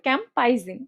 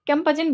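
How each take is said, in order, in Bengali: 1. মাঝের সিলেবলে 'ai' স্বরধ্বনি আছে। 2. মাঝের সিলেবলে সাধারণ 'a' স্বরধ্বনি আছে। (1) "নাইলে আইটা মিস হয়ে যাবে" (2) "আরেকজন বলছে ক্যাম্পাজিন"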